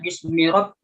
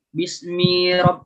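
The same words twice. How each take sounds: First: The vowel after the m is kept short. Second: The vowel after the m is drawn out long. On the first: The speaker calls it right. "mi-nya itu jangan dibaca panjang" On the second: The speaker calls it wrong. "nah itu jadinya panjang"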